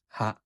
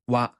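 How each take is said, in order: First: The particle begins with an h sound. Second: The particle begins with a w sound. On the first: The speaker calls it wrong. "not ha" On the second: The speaker calls it right. "It's pronounced as wa"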